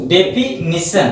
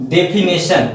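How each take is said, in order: First: Slow, split डेफिनेशन, "de-fi... ni-shan"; correct pronunciation. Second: डेफिनेशन said "de-fi-NE-shan"; mispronunciation. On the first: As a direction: model डेफिनेशन slowly with "ni" in the third syllable. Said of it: "डेफिनेशन नहीं". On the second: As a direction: demonstrate the error "ne" for "ni" in डेफिनेशन. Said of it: "ये आपका गलत हो जाता है". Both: Shown as a demonstration.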